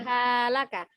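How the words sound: The syllables are swung with an uneven beat. The speaker calls it wrong. "Jangan halaka"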